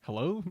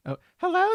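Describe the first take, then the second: First: Said in the usual way. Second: Put-on very high falsetto valley girl; Maya voice. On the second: Maya answering her sister's call, high valley girl. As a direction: squeak it out like a bubbly teen girl. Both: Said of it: "not the Maya voice".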